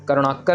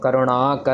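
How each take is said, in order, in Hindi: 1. यह बिना स्वर खींचे, एक साथ जोड़कर बोला जाता है। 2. यह अलग-अलग बोला जाता है, बीच का स्वर खींचकर। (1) "नहीं करना" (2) "अलग अलग पढ़ना है... अणा को थोड़ा सा लंबा खींच दो"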